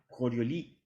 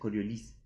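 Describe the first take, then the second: First: The final S is silent. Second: The final S is pronounced. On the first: The speaker calls it wrong. "porque era francés" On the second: The speaker calls it right. "se pronuncia la S igual"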